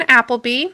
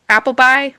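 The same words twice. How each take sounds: First: Appleby said AP-ul-bee, final syllable bee; Appleby ending in ee. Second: Appleby said AP-ul-bye, final syllable rhymes with bye; Appleby ending in bye. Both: Real, not acted. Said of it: "I think I'm saying that's right".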